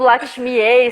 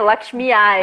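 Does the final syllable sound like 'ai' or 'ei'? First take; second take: ei; ai. First: The final syllable is pronounced 'ei'. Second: The final syllable is pronounced 'ai'. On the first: The speaker calls it wrong. "a vida inteira pronunciando ei" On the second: The speaker calls it right. "sempre ai"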